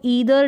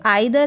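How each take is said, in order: First: The first vowel sounds like 'ee'. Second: The first vowel sounds like 'eye'.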